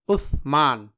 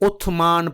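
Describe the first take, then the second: First: The middle consonant is a soft th sound. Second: The middle consonant is a plain s sound. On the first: The speaker calls it right. "ये उस्मान है" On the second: The speaker calls it wrong. "जो कि गलत है"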